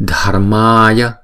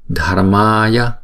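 Both takes have the same delivery.

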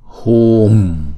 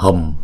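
First: The vowel is held long for two beats. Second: The vowel is closed off quickly. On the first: The speaker calls it right. "chúng ta đọc chữ u này kéo dài hai nhịp" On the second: The speaker calls it wrong. "không có đóng chữ U ngay lập tức"

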